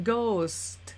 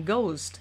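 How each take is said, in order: First: Ghost drawn out slowly, final st separated; slow demonstration. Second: Ghost blended into one quick syllable; quicker, blended. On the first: Teacher showing learners ghost slowly, sound by sound. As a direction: say ghost slowly, letting each sound show. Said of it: "ออกเสียงช้าๆกันก่อนนะคะ". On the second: Teacher showing learners ghost at speed, blended. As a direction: say ghost briskly, sounds joined up. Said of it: "พอรวมเสียงเร็วขึ้นจะกลายเป็น". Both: Shown as a demonstration.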